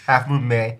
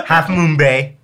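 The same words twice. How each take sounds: First: Said in the usual way. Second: Laughing through the words; a burst of laughter carrying into the line. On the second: Real, not acted. Laughs before saying it.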